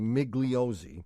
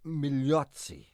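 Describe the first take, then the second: First: The name is said with English sounds. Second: The name is said with Italian sounds. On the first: "or as some people would say" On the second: "I'm going to pronounce it correctly for us"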